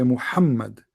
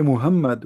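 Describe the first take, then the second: First: Muhammad with a strong, throaty Arabic Ha; native Arabic pronunciation. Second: Muhammad with a plain English h; Westernised pronunciation. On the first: Speaker corrects how we say it, Arabic pronunciation. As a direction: push the h in Muhammad from deep in the throat. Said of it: "we say Muhammad". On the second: Speaker shows what we don't say, Westernised pronunciation. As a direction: say Muhammad with a light h, no throat friction. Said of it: "we don't say Muhammad". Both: Shown as a demonstration.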